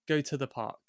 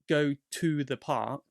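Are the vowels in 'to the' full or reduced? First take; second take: reduced; full. First: The words 'to the' have reduced schwa vowels. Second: The words 'to the' have full vowels. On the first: It sounds natural and everyday. The speaker calls it right. "we usually say go to the park ... I had the schwa in the t and the the" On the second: It sounds robotic and overly formal. The speaker calls it wrong. "it sounds way too robotic, way, way too formal"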